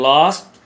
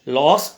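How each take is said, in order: First: It is said with a British accent. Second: It is said with an American accent.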